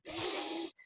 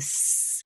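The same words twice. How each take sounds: First: The s is lisped like th. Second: The s is a clear hissing sound. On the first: The speaker calls it wrong. "instead of s" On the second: The speaker calls it right. "to get the s"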